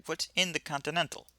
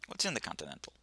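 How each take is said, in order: First: Higher, firmer repeated question; insistent repeat. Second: Low, quiet question; low-key, soft query; first asking. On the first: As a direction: repeat it pointedly, pitch raised. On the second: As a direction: ask it softly, almost to yourself. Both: Acted. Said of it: "I said".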